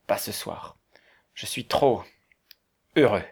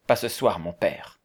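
First: Hushed, halting reply with long pauses; overcome with emotion. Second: Said in the usual way. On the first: A narrator's reading. Valberg declining the prayer, too moved, hushed and halting. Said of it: "son émotion était trop vive". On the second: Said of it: "répondit Valberg".

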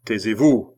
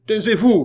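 First: Loud command at an ordinary pitch; firm, louder order; clerk's shouted order. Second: High, loud, sharp command; explosive high-pitched order; commissioner's shout. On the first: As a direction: order her to be silent, voice raised. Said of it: "cria le greffier". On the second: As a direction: shout her down. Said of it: "cria le commissaire". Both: A narrator's reading.

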